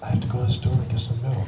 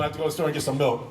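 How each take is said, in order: First: Stiff, deadpan Katie Cassidy; Katie Cassidy, no movement. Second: Fast, lightly voiced Katie Cassidy; Katie Cassidy impression. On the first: Retold or imitated. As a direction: say it without moving a muscle. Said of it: "No movement". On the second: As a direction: race through it as a hint of Katie. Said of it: "Katie Cassidy doing".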